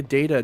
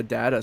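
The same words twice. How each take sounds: First: First vowel of "data" as in "day"; DATA as DAY-tuh. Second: First vowel of "data" as in "cat"; DATA as DAT-uh. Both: Shown as a demonstration. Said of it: "like, a data data situation".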